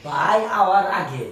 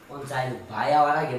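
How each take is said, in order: First: ভাই hour আগে stretched out and louder; slow emphatic repeat. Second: Low-pitched, unemphatic ভাই hour আগে; low aside. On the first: Man pressing the point to sister-in-law, slow loud emphasis. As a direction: spell out ভাই hour আগে slowly, firmly. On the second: Man to sister-in-law before brother returns, low aside. First take, before emphatic repeat. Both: Acted.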